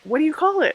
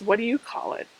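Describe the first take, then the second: First: The question sounds sincere and curious. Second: The question sounds sarcastic and mocking. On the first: The speaker genuinely wants to know. The speaker calls it right. "I really want to know" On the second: The speaker seems to mock the question. The speaker calls it wrong. "that came out really sarcastic"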